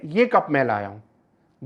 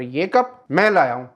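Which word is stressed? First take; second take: ये; मैं. First: The stress falls on the word ये. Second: The stress falls on the word मैं. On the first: Only this cup was brought, not the others. "पहले वाले में कि बाकी कप्स का पता नहीं मुझे" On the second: I am the one who brought it. "दूसरे वाले में आप कब की बात कर रहे हैं, मैं लाया हूं"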